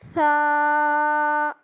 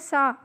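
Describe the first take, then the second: First: The letter is sounded softly, with a lisping th. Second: The letter is sounded hard, like a plain s. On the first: The speaker calls it right. "ऐसी वाली सा निकलेगी" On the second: The speaker calls it wrong. "ज़ुबान को दांतों के साथ लगाए अगर निकाले तो तब किस तरह निकलता है सा"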